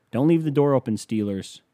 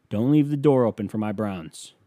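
First: Taunting warning. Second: Said in the usual way. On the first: Real, not acted. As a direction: call it out at the rival team. Taunting the Steelers.

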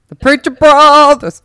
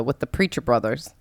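First: Loud, slow, drawn-out repeat; emphatic shout. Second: Said in the usual way. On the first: Real, not acted. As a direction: call the name out big.

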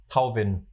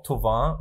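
First: Tauvin read the German way, "Tow-vin"; German spelling pronunciation. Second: Thauvin the French way, "To-van"; French pronunciation. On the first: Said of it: "und nicht Tauvin". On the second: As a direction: say Thauvin with O and a nasal ending. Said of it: "sage ich doch auch". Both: Shown as a demonstration.

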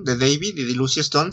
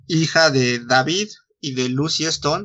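First: "David" dicho a la inglesa, DEI-vid; pronunciación inglesa. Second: "David" dicho a la española, con a clara y acento en la i; pronunciación española. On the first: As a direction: di "David" como nombre inglés, con diptongo ei y acento inicial. ("David" pronunciado en inglés) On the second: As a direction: di "David" como nombre español, da-BID. Repite el nombre con otra pronunciación. ("David" pronunciado en español) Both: Real, not acted.

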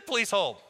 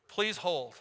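First: Mock agent voice. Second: Said in the usual way. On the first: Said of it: "Let me put you on". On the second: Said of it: "is one of those terms".

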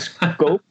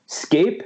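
First: "Scope" said with a long o, like rope; "Scope" said with an oh vowel; wrong pronunciation. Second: "Scape" said with an ay vowel, like cape; "Scape" said with a clear ay sound; corrected pronunciation. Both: Shown as a demonstration. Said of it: "let's try this again".

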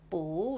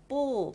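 First: 不 changed to a rising second tone. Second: 不 in its written fourth tone, falling. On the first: Teacher showing learners the read-aloud tone, 不 rising in second tone. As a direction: lift 不 upward, as it is read. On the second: Teacher showing learners the written tone, 不 falling in fourth tone. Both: Shown as a demonstration. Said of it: "不 must become 不 when you read it".

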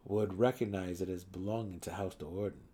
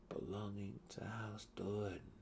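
First: Said in the usual way. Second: "Belonging to House Do'Urden" much softer, whispered. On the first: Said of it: "echoed as a whisper". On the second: A narrator's reading. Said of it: "Drizzt whispered aloud".

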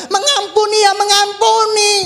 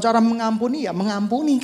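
First: Shouted mengampuni ya mengampuni, much louder and higher; mengampuni keras. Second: Said in the usual way. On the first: Shown as a demonstration. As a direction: punch "mengampuni ya mengampuni" out loud. (teriakkan "mengampuni ya mengampuni" keras)

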